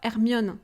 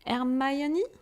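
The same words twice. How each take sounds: First: The name is said with French pronunciation. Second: The name is said with English pronunciation. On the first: "In France, we are calling her" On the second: "the pronunciation in English"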